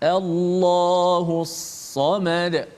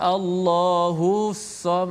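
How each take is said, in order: First: The vowel runs straight into the s. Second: The vowel before the s is drawn out. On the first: The speaker calls it right. "hus terus" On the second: The speaker calls it wrong. "jangan Allahus sam, ah, tak boleh panjangkan hu itu"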